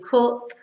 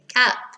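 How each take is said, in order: First: The vowel is a northern 'u' sound. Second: The vowel sounds more like 'a'. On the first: The speaker calls it right. "In Manchester, we say cup" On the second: The speaker calls it wrong. "they pronounce their U's more like an A"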